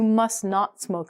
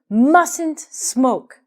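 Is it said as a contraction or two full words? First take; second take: full words; contraction. First: It is said as two full separate words. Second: It is said as one quick contracted word. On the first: It forbids the action more strongly. "if you want to say must not, it sounds even stronger" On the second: It is the ordinary, natural way to say it. "Mustn't faster and uh, sounds more natural"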